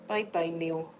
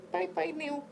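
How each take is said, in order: First: Said in the usual way. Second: Put-on baby voice goodbye. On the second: Farewell to cut nail, baby voice.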